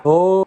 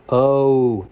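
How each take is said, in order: First: Long "oh" held open, Minnesota style. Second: Said in the usual way. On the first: Shown as a demonstration. Host contrasting O sounds, open Minnesota "oh". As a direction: keep the mouth big and rounded on "oh". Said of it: "but in Minnesota". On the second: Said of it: "When I usually pronounce".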